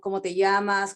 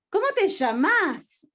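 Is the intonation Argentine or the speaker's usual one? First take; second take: usual; Argentine. First: It has the speaker's own usual intonation. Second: It has an emotional Argentine intonation.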